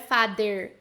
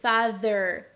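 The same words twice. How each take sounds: First: The middle consonant is a d sound. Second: The middle consonant is a th sound. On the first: The speaker calls it wrong. "não é father, father com D" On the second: The speaker calls it right. "com essa língua entre os dentes"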